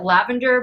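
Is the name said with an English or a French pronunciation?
English. The name is said with an English pronunciation. The speaker calls it wrong. "I'm gonna pronounce it lavender, but it's not"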